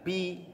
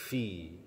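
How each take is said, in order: First: The syllable starts with a P sound. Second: The syllable starts with an F sound. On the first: The speaker calls it wrong. "jangan pi" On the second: The speaker calls it right. "tapi fi"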